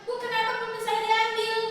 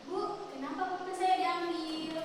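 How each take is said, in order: First: It is said in an angry, harsh tone. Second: It is said in a calm, polite tone. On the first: The speaker is reacting with immediate anger. The speaker calls it wrong. "Langsung marah kan?" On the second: The speaker is expressing the feeling politely. The speaker calls it right. "Harusnya berbicara dengan sopan, misalnya diam sejenak"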